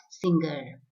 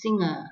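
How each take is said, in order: First: Singer as SING-ger; hard g after the ng in singer; wrong pronunciation. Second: Singer as SING-uh; no hard g in singer; correct pronunciation. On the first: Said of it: "It's not singer". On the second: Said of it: "It's singer". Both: Shown as a demonstration.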